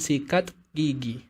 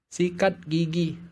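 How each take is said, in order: First: The t ends with a puff of breath. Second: The t ends crisply with no breath released. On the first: The speaker calls it wrong. "Tidak ada yang mengatakan sikat gigi" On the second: The speaker calls it right. "huruf T tidak mengalirkan nafas"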